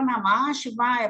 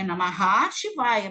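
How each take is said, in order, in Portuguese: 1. A primeira palavra termina cortada, sem vogal final. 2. A primeira palavra termina com a sílaba 'ha' completa. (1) "mas a gente fala Namah Shivaya por causa do S" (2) "é Namaha Shivaya"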